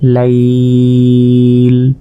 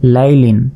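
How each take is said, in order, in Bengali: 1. এটা টেনে থেমে যায়, শুধু ব্যঞ্জনে শেষ হয়। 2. এটা চলতে থাকে, স্বরবর্ণ আর ন দিয়ে শেষ হয়।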